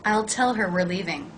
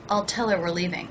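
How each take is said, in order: First: The H at the start of 'her' is pronounced. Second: The H is dropped and 'her' links to 'tell'.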